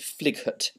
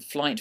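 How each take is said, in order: First: An extra sound is pronounced after the vowel. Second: No extra sound is pronounced after the vowel. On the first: The speaker calls it wrong. "You don't say flighut" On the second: The speaker calls it right. "it's pronounced I, as if it was spelt I T E"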